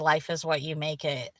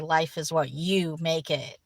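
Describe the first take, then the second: First: It is said with even, plain stress. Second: The word you is stressed.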